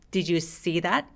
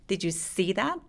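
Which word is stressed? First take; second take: see; see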